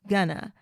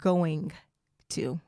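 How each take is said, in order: First: The words are run together into one. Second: The words are said fully and separately. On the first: "we kind of smashed that together" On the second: "instead of going to"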